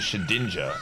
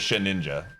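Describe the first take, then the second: First: The ending is not said like the word ninja. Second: The ending is said like the word ninja. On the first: The speaker calls it wrong. "it's actually Shedinja" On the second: The speaker calls it right. "I thought it was Shedinja. Like, I, that just sounds cool"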